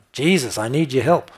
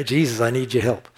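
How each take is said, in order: First: Raised pleading cry, a little louder. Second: Pleading call to Jesus, pushed a bit more; building cry. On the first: Preacher voicing the blind man's cry to Jesus, pleading out loud. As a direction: call to Jesus for help. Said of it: "That's what he was crying out". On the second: Preacher building the blind man's cry again, pleading out loud. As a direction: let the plea build. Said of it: "building on it". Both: Retold or imitated.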